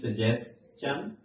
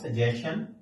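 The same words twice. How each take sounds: First: The ending is said like chun. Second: The ending is said like shun. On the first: The speaker calls it right. "This is सजेशन" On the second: The speaker calls it wrong. "This is not सजेशन"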